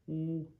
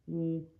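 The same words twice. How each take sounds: Both takes have the same delivery.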